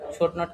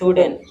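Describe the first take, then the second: First: Both words are said fully and separately. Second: The words are merged into one contracted word.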